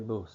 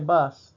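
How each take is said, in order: First: The vowel sounds like an 'oo' sound. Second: The vowel sounds like the English 'uh'. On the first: This is how locals say it. The speaker calls it right. "they say bus. And that's because that's U has a different sound" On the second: This is not how locals say it. The speaker calls it wrong. "they don't say bus"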